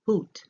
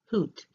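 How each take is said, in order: First: "hoot" higher and louder with a long oo; teacher models "hoot" clearly; demonstrated word. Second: "hoot" high with a long oo like boot; teacher repeats "hoot" for learners; repeated model word. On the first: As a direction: pitch "hoot" up with a long oo vowel. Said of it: "Then we go to the long U". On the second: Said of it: "which is a hat". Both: Shown as a demonstration.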